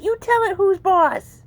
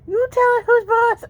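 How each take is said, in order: First: Slow, high coaxing to the kitten; coaxing pet talk. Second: Higher and louder cheering on; excited pet talk. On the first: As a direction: draw it out for the kitten. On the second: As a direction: pump the kitten up. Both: Real, not acted. Cheering kitten on.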